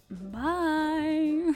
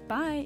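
First: The word is said with a wavering vibrato voice. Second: The word is said in a plain, steady voice. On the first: "start saying my goodbye with like a vibrato" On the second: "instead of like"

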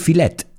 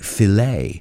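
First: The word ends with an 'et' sound. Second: The word ends with an 'ay' sound. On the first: The speaker calls it wrong. "We don't say filet" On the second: The speaker calls it right. "we say filet"

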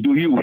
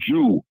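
First: It is said as two separate syllables. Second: It is blended into one syllable, 'jew'. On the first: "Instead of saying" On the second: "he always says"

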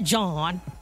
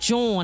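First: The word is said an outsider's way. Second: The word is said the Philadelphia way. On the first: The speaker calls it wrong. "not John" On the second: The speaker calls it right. "It is John"

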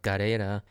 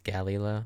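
First: The name is said with Japanese pronunciation. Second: The name is said with English pronunciation. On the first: "in Japanese it's pronounced Gareira" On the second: "in English it's Galleola"

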